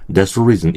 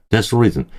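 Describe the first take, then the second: First: "that's the reason" with th nearly silent; quick blended "that's the reason", dassa-reason; linked reduced form. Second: "That's the reason" with a clear, separate "the"; careful, unlinked "That's the reason"; full dictionary form. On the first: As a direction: swallow "the" into "that's" before "reason". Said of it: "이럽니다". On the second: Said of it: "인데". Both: Shown as a demonstration.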